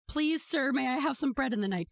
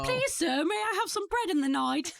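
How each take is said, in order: First: It is said in the speaker's normal voice. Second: It is said in a put-on accent.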